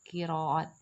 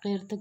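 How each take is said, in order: First: The word has three syllables, with a long a. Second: The word is squeezed into one syllable. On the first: The speaker calls it right. "ये लफ्ज़ इस तरह बोला जाता है" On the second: The speaker calls it wrong. "कहना दुरुस्त नहीं"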